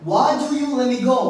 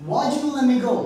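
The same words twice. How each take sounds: No difference in how they are said.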